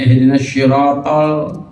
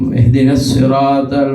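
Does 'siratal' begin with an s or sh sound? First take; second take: sh; s. First: The word begins with an sh sound. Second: The word begins with a plain s sound. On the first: The speaker calls it wrong. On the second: The speaker calls it right.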